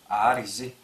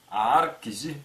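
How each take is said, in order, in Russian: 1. Произносится быстро и слитно, k озвончается в g. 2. Произносится отдельно, как два слова, с явным звуком k. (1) "в быстрой речи" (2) "по отдельности"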